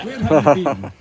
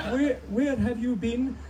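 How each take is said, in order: First: Put-on Queen given a Hebridean accent; Outer Hebrides accent. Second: High, slow mock Queen's English; Queen accent. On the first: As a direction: drop the royal accent for loud Hebridean. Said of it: "pretend the Queen's from the Outer Hebrides". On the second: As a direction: draw out a high-pitched impression of the Queen's accent. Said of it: "That's my Queen accent".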